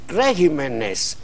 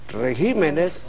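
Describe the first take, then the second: First: The stress is on the first syllable. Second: The stress is on the second syllable. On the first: The speaker calls it wrong. "y no regímenes" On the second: The speaker calls it right. "régimen, regímenes"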